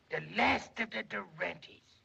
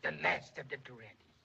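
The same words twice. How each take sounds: First: The last of the Durantes said slowly with stretched last; slow grand lament. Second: Said in the usual way. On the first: Shown as a demonstration. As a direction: drag out last like a grand farewell. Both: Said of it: "repeated dramatic line".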